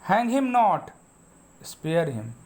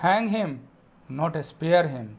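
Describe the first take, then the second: First: The pause comes after "not". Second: The pause comes after "hang him".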